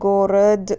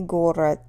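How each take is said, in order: First: The final consonant is voiced, like d. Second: The final consonant is voiceless, like t. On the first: The speaker calls it wrong. "In theory, it should be voiced" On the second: The speaker calls it right. "it sounds more like t"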